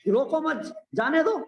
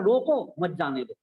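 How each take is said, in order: First: The pause comes right after 'mat'. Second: The pause comes right after 'roko'.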